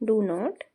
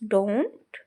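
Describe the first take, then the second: First: It is said as two full words. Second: It is said as one contracted word. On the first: "expanded form" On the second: "short form दी गई है"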